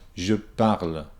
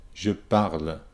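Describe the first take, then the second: The two takes are said the same way.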